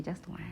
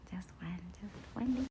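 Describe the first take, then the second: First: Said in the usual way. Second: Soft, hushed whisper; conspiratorial whispered repeat; secretive whisper. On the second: Real, not acted. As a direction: whisper it as a sneaky little plea. Coaxing herself, repeats in whisper.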